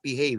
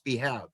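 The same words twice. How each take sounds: First: The second syllable rhymes with 'save'. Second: The second syllable rhymes with 'have'. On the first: The speaker calls it wrong. "Everybody says it's behave. It's not behave" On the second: The speaker calls it right. "It's behave. It's to to be have"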